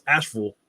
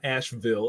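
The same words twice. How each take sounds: First: Asheville reduced to ASH-ful; local pronunciation. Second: Asheville with a full VILL ending; non-local pronunciation. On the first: Correcting to how locals say Asheville, local pronunciation. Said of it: "That's how you say it". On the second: Showing viewers how not to say Asheville, full "-vill". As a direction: say Asheville as spelled, ASH-vill. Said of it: "Not Asheville". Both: Shown as a demonstration.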